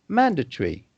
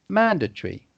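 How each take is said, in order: First: The middle syllables are shortened and reduced. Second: The middle syllables are shortened and reduced.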